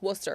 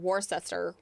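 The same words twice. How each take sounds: First: It is said without following its spelling. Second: It is read out following its spelling. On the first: The speaker calls it right. "It's Worcester" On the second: The speaker calls it wrong. "Don't read it like that"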